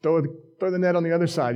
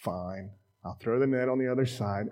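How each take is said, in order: First: Quick, lightly raised call; mild acted yell to fishermen. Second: Low, soft grudging "fine"; grudging compliance. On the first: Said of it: "Jesus yells at 'em". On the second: Acted. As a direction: give in with mild reluctance. Beat-up fisherman gives in.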